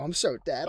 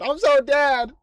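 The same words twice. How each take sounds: First: Said in the usual way. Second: Higher, louder comic despair; mock panicked yelp. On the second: Player voicing his character about to be killed, mock panic. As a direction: wail it as if doom is certain.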